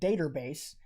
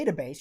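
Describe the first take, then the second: First: The word ends with an added R sound. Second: The word ends without an R sound. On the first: "If you have an A, you add an R to it" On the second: "You don't have a database"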